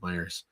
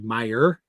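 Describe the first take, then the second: First: The name ends with an s sound. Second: The name ends without an s sound. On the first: This is how people from Michigan say it. "you always pronounce the S, uh, the invisible S on the end of Myers" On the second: This is the store's actual name. "it's actually Meyer"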